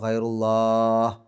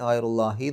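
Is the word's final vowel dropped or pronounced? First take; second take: dropped; pronounced. First: The word ends abruptly without its final vowel. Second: The word ends with its final vowel pronounced. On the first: The recitation pauses here. "നിർത്തുകയാണെങ്കിൽ ... ഗൈറുല്ലാ എന്ന് പറഞ്ഞിട്ടാണ് നിർത്തുക" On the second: The recitation continues without pausing. "നിർത്താതെ പോവുകയാണെങ്കിൽ ... ഗൈറുല്ലാഹി എന്ന് പറഞ്ഞിട്ട് തന്നെ"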